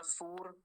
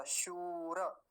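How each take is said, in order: First: सूर with a dental s, softly; wrong dental s. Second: शूर with palatal श and long ू, slow; correct palatal sh. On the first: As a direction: say सूर the mistaken way. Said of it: "नहीं तो सूर कह देते हैं". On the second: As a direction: stretch शूर out with a clear श. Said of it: "लंबा खींचेगा थोड़ा सा". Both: Shown as a demonstration.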